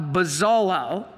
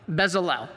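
First: Bezalel as buh-ZAH-lol, drawn out; tentative pronunciation. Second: Bezalel as BEZ-uh-lel, pitched low; corrected pronunciation. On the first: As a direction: say Bezalel slowly, unsure, with an "ah" in the middle. First attempt at a hard name. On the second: Repeats the corrected name. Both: Real, not acted.

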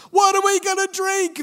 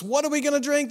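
First: Much higher, louder mock demand from the crowd; complaining demand. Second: Higher, slightly louder demand; a milder retelling of the mob's demand; complaining demand. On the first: Thirsty Israelites demanding water from Moses, high mock complaint. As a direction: whine it out like a thirsty complaining mob. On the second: Israelites demanding water again, a lighter mock complaint. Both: A narrator's reading. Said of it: "they demanded".

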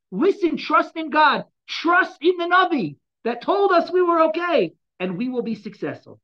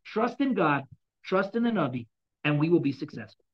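First: Higher, louder, slow rallying call; rally the people before battle, slowly; impassioned exhortation. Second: Said in the usual way. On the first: Acted. Voices the king exhorting people.

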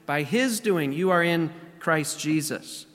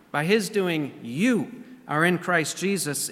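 First: Emphasize "his" in "by his doing", falling after it; weight on "his", the rest settling downward; stress on HIS. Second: Emphatic "you" after an even "by his doing"; stress on YOU. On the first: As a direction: make "his" the key word. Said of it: "here again he reemphasizes". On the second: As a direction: hit the word "you", then let the rest settle. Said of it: "it's emphatic there". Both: Retold or imitated.

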